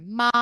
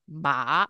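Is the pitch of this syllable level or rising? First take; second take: level; rising. First: The pitch stays high and level. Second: The pitch starts low and rises. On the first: It means mum. "which is the first tone, it's like a high level tone" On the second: It means hemp. "a rising second tone. So it's ma, where you start low and you go up"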